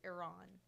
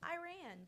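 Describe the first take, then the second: First: Iran is said in a standard, non-country way. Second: Iran is said in a Southern country accent. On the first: The speaker calls it right. "It's not Iran. It's Iran" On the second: The speaker calls it wrong. "I'm very country, so I've always been like"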